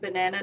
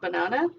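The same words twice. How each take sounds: First: It is said with a North American vowel. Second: It is said with an Australian vowel. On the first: This is the local way where the speaker now lives. The speaker calls it right. "and banana" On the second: This is the speaker's original home way. The speaker calls it wrong. "not banana"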